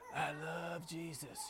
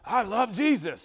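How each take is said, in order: First: It is said in a breathy, sensual voice. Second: It is said in a harsh, angry voice. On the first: The words sound suggestive rather than devotional. "more of a sensual, breathy, suggestive way" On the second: The delivery clashes with the loving words. "they sound angry when they're singing"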